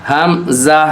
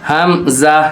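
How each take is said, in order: Both takes have the same delivery.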